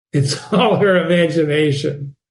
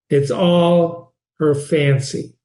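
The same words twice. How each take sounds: First: A laugh before "all"; teacher amused. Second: Slow with "all" stressed; slow, stressing "all". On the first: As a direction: say it with a small laugh. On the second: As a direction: draw "all" out slowly. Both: Shown as a demonstration.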